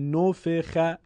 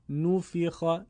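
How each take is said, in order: First: The vowel is said with a non-Arabic sound. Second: The vowel is said with an Arabic-style sound. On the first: The speaker calls it wrong. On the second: The speaker calls it right.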